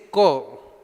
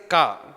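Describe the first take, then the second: First: The vowel is rounded, like 'o'. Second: The vowel is open, like 'a'. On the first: This is the Bengali way of saying the letter. "Ramakrishna will say O" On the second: This is the Bihari way of saying the letter. "he will say A"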